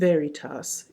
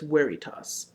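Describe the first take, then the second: First: The word begins with a V sound. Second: The word begins with a W sound. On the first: The speaker calls it wrong. "So all those V's you used were W's. So you're not saying veritas" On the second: The speaker calls it right. "it's veritas"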